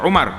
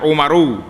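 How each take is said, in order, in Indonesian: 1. Awalnya u dan akhirnya ar. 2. Awalnya u dan akhirnya aru. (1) "jangan baca Umar" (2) "jangan baca Umaru"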